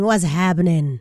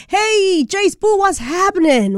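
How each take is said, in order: First: Dropped, lower repeat of the greeting; low-pitched echo. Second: High, drawn-in radio greeting; high-pitched hailing. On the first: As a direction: repeat it down low, falling at the end. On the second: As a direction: call out to the reporter in a raised pitch. Host calls out to beach reporter. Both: Real, not acted.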